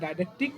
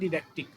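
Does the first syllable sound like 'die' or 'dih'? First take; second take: die; dih. First: The first syllable sounds like 'die'. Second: The first syllable sounds like 'dih'. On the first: "অনেক ক্ষেত্রে বলা হয় ডাইডাকটিক" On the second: "অনেক ক্ষেত্রে বলা হয় ডিডাকটিক"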